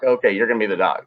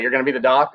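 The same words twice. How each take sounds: First: "Okay, you're gonna be the doc." fast, falling flat on "doc"; sarcastic statement. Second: "You're gonna be the doc?" with a rising, doubtful lift on "doc"; mocking question. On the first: Retold or imitated. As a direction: rattle it off quickly, dropping on "doc" as a dismissive verdict. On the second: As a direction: ask it in disbelief, rising on "doc". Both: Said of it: "They were all like".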